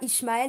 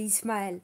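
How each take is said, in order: First: The first syllable has an 'sh' sound. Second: The first syllable has a plain 's' sound. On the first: The speaker calls it wrong. "C'est pas Ishmaël" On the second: The speaker calls it right. "tu prononces Is, donc c'est Is"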